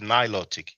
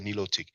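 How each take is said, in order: First: It is said with an American pronunciation. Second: It is said with a French pronunciation. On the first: "Maybe in America people will pronounce it" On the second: "in French we say"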